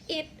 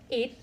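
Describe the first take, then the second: First: The vowel sounds like the one in meat. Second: The vowel sounds like the one in egg. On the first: "pronounced it in the rhyme with meat" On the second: "the pronunciations it like egg"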